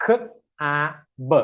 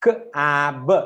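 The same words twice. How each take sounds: First: Three separate sounds with gaps between; slow sounding-out. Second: Three sounds run closely together; faster blending. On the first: Teacher has learners blend slowly first, sounds spaced out. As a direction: sound it out slowly, one sound at a time. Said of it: "slow ആയിട്ട്". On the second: Teacher speeds up the blend for learners, sounds closer. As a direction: close up the gaps between the sounds. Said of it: "ഇനി fast ആക്കുക". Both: Shown as a demonstration.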